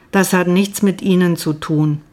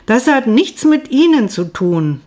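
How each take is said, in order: First: Said in the usual way. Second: Higher, a bit hysterical. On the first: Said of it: "meine Stimme erreichte eine amerikanische Tonhöhe". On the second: A narrator's reading. Narrator repeats her answer to the doctor, higher and a touch hysterical. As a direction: pitch jumps higher and a little louder, near hysterical. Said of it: "meine Stimme erreichte eine amerikanische Tonhöhe, klang hysterisch".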